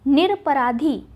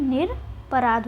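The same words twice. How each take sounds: First: निरपराधी ending in long ī; निरपराधी, the extra ī sounded at the end; wrong form shown. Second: निरपराध ending on dh; निरपराध, stopping at -rādh; correct form shown. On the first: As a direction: say निरपराधी with final -dhī. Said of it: "निरपराधी नहीं होता है". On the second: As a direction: say निरपराध with no final ī. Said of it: "क्या होता है?". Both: Shown as a demonstration.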